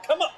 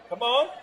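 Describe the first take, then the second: First: Said in the usual way. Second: Loud, high, laughing come on; excited cheer. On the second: Real, not acted. Cheering a shot.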